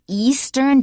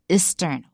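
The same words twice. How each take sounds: First: The first vowel is a long 'ee' sound. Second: The first vowel is a short 'i' sound. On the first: The speaker calls it right. "So it's" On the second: The speaker calls it wrong. "Don't say"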